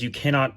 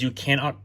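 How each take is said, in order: First: Said in the usual way. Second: Voice crack. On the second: Real, not acted. Tech vlogger explaining a Windows driver limit, voice cracking. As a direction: voice cracking mid-phrase, pitched up. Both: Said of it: "excuse me, voice crack".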